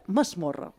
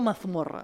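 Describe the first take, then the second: First: The middle consonant is said as an S sound. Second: The middle consonant is said as a Z sound. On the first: The speaker calls it right. "amb S" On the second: The speaker calls it wrong. "no amb Z"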